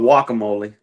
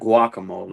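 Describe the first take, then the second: First: The word begins with a W sound. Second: The word begins with a G sound. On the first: The speaker calls it right. "It's called guacamole" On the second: The speaker calls it wrong. "not guacamole"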